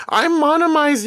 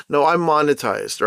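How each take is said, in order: First: "monomized" said as MON-o-mized, pitched way up in jest; goofy high "I'm monomized", botching monetized on purpose; playful squeaky "monomized" instead of monetized; mock mispronounced monetized. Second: Said in the usual way. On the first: Shown as a demonstration.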